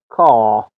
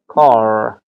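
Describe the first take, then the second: First: The r after the vowel is silent. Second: The r after the vowel is pronounced. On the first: "بریتیش کا" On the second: "ما در لهجه امریکن اگر تلفظ کنیم میگیم کار"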